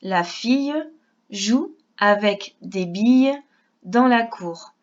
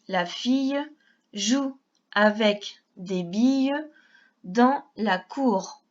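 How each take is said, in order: First: The sentence is read at a normal pace. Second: The sentence is read at a slower pace.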